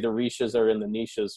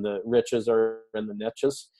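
First: Niches is pronounced the Canadian way. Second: Niches is pronounced the American way. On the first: "We would have to say the riches are in the niches or something in Canada" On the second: "this is the American pronunciation"

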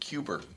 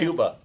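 First: The word ends with an added r sound. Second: The word ends in a plain vowel. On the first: "She always said Cuber" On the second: "My mom can say Cuba"

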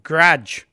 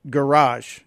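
First: The word is squeezed into one syllable. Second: The word is said with two syllables. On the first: This is how people from Chicago say it. "We pronounce it garage. It's like a one-syllable word" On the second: This is how people outside Chicago say it. "we don't pronounce it garage"

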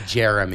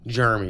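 First: The name is said with all syllables full. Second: The name is clipped, sounding like 'germ'. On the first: The speaker calls it right. "As opposed to" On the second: The speaker calls it wrong. "like right? Germs"

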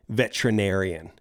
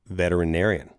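First: One syllable of the word is dropped. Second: Every syllable of the word is pronounced. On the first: The speaker calls it wrong. "They all say veterinarian. ... That's not how you pronounce it" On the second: The speaker calls it right. "literally no one in this movie pronounces it that way"

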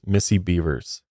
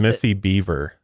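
First: The surname is said as 'Bevers' with final s. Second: The surname is said as 'Beaver' without final s. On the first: The speaker calls it right. "It's Missy Bevers" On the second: The speaker calls it wrong. "he says Missy Beaver"

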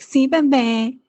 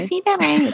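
First: It is said in the natural voice, sweet tone. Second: It is said in a put-on baby voice. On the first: The speaker calls it right. "It's like more like, ... Like that" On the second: The speaker calls it wrong. "And you change your voice. You're like"

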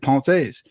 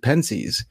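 First: The word is given a French pronunciation. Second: The word is given an American pronunciation. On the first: "it'd be really dumb for me to be like" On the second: "the way I hear most Americans say it"

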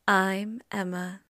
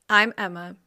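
First: It is said like an NPR radio host. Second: It is said in her ordinary voice.

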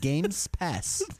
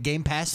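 First: An s sound is added after Game. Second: No s sound is added after Game. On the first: The speaker calls it right. "it just flows better in my tongue likes the two S's, the three S's" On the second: The speaker calls it wrong. "it's a little like jarring"

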